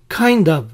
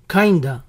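First: Both words are said fully and separately. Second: The two words blend into one reduced word.

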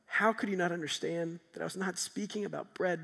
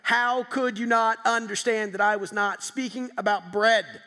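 First: It is said in a gentle, caring tone. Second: It is said in a harsh, mean tone.

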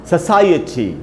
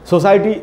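First: A short 'uh' vowel follows 'sai'. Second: No short vowel is heard after 'sai'. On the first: The speaker calls it right. "स के बाद आपको साई बोलना है, उसके बाद आधा अ भी है" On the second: The speaker calls it wrong. "इसको हम लोग पढ़ लेते हैं सोसाइटी सोसाइटी"

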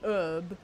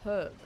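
First: The word starts without any h sound. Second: The word starts with an audible h sound. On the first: The speaker calls it wrong. "Not an herb" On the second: The speaker calls it right. "It's a herb"

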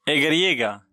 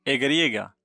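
The two takes are said the same way.

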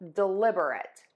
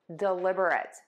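First: The word is said with four syllables. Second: The same.

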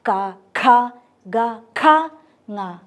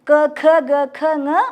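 First: Each consonant ends in an open a sound. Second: Each consonant ends in a short rounded u sound. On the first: The speaker calls it right. "വ്യഞ്ജനാക്ഷരങ്ങൾ തുറന്ന് ആണ് ഉച്ചരിക്കുന്നത്" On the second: The speaker calls it wrong. "തെറ്റാണ്"

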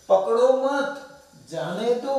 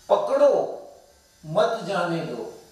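First: A short pause comes after मत. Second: A short pause comes after पकड़ो.

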